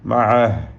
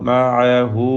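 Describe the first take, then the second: First: The word ends on a bare h consonant. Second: The word ends with a short u vowel. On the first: The reciter stops on this word. "വഖഫ് ചെയ്യുകയാണെങ്കിൽ സുക്കൂനാണ്" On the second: The reciter joins it to the next word. "ചേർത്ത് ഓതുമ്പോൾ"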